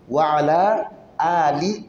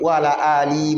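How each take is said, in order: First: The first vowel of Ali is drawn out long. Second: The first vowel of Ali is short. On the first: The speaker calls it right. "On va tirer" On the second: The speaker calls it wrong. "il y en a qui vont dire"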